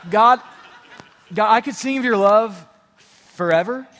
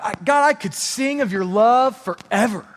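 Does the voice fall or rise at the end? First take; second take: rises; falls. First: It is said as a question, rising at the end. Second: It is said confidently, falling at the end.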